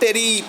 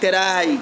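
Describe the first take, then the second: First: The last syllable sounds like 'ee'. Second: The last syllable sounds like 'eye'. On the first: The speaker calls it wrong. "not teri" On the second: The speaker calls it right.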